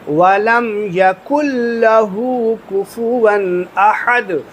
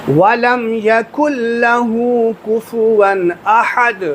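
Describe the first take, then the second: No difference in how they are said.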